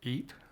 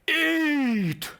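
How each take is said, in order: First: The word is said calmly and quietly. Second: The word is shouted loudly. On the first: The craving has calmed down. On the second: A desperate craving demands food.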